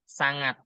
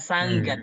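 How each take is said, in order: First: No hard g follows the ng sound. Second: A hard g follows the ng sound. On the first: The speaker calls it right. "G-nya hilang" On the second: The speaker calls it wrong. "Bukan sanggat"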